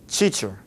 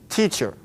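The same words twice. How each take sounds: First: It begins with a ch-like sound. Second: It begins with a clear t sound. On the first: The speaker calls it wrong. "when I say it with the Portuguese influence" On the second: The speaker calls it right. "My tongue is touching teacher, a little further back behind my teeth"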